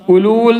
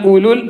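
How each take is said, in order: First: The vowel before the final L is long. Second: The vowel before the final L is short. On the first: The speaker calls it wrong. "ഉലൂൽ എന്ന് വായിക്കൂല" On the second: The speaker calls it right. "നീട്ടാതെയാണ് വായിക്കേണ്ടത്"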